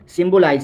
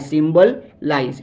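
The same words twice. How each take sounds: First: Said in the usual way. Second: symbolize drawn out slowly, syllable by syllable; dictating symbolize slowly to the class; slow, clear demo. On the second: Shown as a demonstration. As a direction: stretch out symbolize so students can follow it. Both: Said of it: "teacher repeats word slowly".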